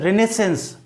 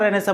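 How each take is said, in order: First: The word ends with an s sound. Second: The word ends on a vowel without s. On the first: The speaker calls it right. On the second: The speaker calls it wrong.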